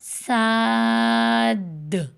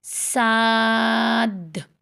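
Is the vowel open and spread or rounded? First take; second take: spread; spread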